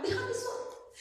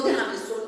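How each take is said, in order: First: Much higher, pleading "déjame solo". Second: Said in the usual way. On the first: Retold or imitated. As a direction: push "déjame solo" up high, begging to be left alone. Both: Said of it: "Les digo".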